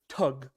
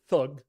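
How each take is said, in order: First: The word begins with a plain t sound. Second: The word begins with a th sound. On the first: This is how Indians pronounce it. "The Indians pronounce it tug. Okay, they don't pronounce the H" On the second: This is the usual English pronunciation. "we pronounce it thug"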